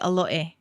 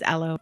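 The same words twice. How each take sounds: First: It is said the Hawaiian way, all vowels pronounced. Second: It is said the usual mainland way.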